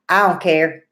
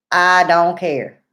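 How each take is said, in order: First: Said in the usual way. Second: Slow emphatic I don't care; emphatic repeat. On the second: Real, not acted. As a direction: dig in hard on the repeat.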